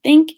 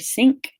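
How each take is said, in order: First: The word begins with a th sound. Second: The word begins with an s sound.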